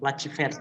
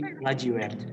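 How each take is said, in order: First: The consonant before 'ert' is a 'v' sound. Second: The consonant before 'ert' is a 'w' sound. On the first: The speaker calls it wrong. "bukan lacivert ya" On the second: The speaker calls it right. "tapi lajiwert. Oke, sama W"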